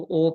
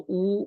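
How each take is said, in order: First: او said as an open "oh"; mistaken majhool vowel. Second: او said as a close "oo"; correct maroof vowel. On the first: Teacher shows what people read, majhool "oh" in او. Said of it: "تو اس کو او پڑھتے". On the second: Teacher shows what should be read, maroof "oo" in او. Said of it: "او پڑھنا چاہیے". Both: Shown as a demonstration.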